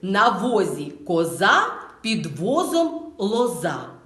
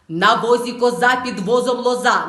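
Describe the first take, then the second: First: It is said at a moderate, careful pace. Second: It is said quickly at a fast pace. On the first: "Далі можна промовити чітко вголос" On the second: "І далі тричі швидко"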